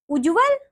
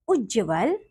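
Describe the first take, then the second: First: "उज्जवल" as "u-ju-val"; wrong pronunciation. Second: Said in the usual way. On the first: Shown as a demonstration. Teacher showing pupils the error, "उज्जवल" mispronounced as "ujuval". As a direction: put a u after the j of "उज्जवल". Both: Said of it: "अन्य अशुद्धियां कुछ".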